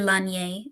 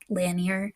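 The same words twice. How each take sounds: First: The name is said with a French pronunciation. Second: The name is said with an English pronunciation. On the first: "should be Lanier, like the French pronunciation" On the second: "but I'm going to say Lanier"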